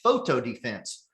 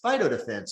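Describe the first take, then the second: First: The first word begins like 'photo'. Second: The first word begins like 'fight'. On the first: The speaker does not know what the product is called. The speaker calls it wrong. "like the person that doesn't even know what it's called" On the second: The speaker knows the product well. The speaker calls it right. "say all the words right and pronounce phyto defense"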